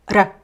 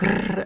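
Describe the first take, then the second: First: The R is a single quick tap. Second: The R is a long rolled trill. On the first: "the R is like a flap, It's vibrant, but it's quick" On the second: "It's not long, vibrant like the Italian R, like r"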